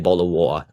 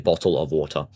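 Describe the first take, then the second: First: It is said in a put-on British accent. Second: It is said in a non-British accent. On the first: The speaker calls it wrong. "I'm not British. I don't say bottle of water" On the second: The speaker calls it right. "I say bottle of water"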